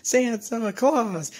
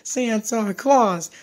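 No difference in how they are said.

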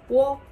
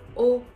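First: It starts with a w sound before o. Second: It is a plain o with no w sound. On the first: A less common way some speakers say it. "Some Japanese say wo" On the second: The usual way most speakers say it. "but mainly we say o"

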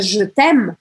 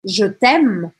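First: The vowel in 'je' is barely pronounced. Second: The vowel in 'je' is barely pronounced.

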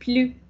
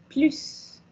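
First: The final s sound is silent. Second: The final s sound is pronounced. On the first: It means no more, as a negation. "Quand c'est négation, on dit plus" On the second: It means more, at the end of a sentence. "quand on va au final de la phrase, non comme négation, donc se dit plus"

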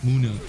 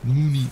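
First: The word ends with an 'ah' sound. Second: The word ends with an 'ee' sound. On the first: "the way it's pronounced, it's Neomuna" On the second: "he says it"

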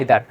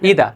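First: It begins with an 'eye' sound and ends with r. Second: It begins with an 'ee' sound, no final r. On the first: The speaker calls it wrong. "আমরা বলি আইদার" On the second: The speaker calls it right. "উচ্চারণ কি ইদা"

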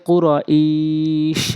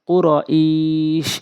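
The two takes are said the same way.

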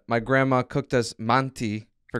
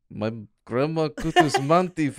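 First: It is read in a normal voice. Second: It is read in a put-on Russian accent.

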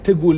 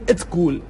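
First: The word starts directly with a t cluster. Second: A short vowel comes before the t sound. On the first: The speaker calls it wrong. "در واقع نمیگن تگول" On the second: The speaker calls it right. "میگن اتگول"

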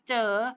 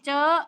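First: The word is said with a rising tone. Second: The word is said with a high tone. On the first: "ไม่จัตวา" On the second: "ไม่ตี"

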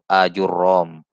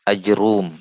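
First: Long first a; doubled r is followed by a. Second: No vowel follows j; r is followed by u. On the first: "huruf roknya di fathah, dengan huruf alif menggantikan waw" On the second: "di sukun jimnya"

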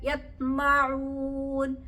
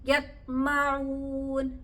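The two takes are said the same way.

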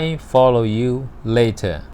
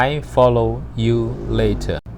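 Both takes have the same delivery.

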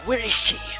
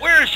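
First: It is said quietly. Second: It is said loudly.

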